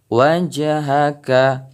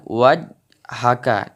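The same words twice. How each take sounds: First: "wajhaka" with an audible echo on the j; bounced jim. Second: "wajhaka" with the j closed flat; wrong way, no bounce. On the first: Teacher showing the right reading, bounced jim. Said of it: "tapi wajhaka". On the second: Teacher showing the wrong reading, flat jim. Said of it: "bukan wajhaka". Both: Shown as a demonstration.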